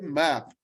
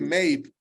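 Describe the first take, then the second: First: The vowel is a short open sound. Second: The vowel sounds like the letter name A. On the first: The speaker calls it right. "I say map" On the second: The speaker calls it wrong. "I don't say map. ... the pronunciation in the word is not A"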